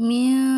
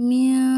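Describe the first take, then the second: No difference in how they are said.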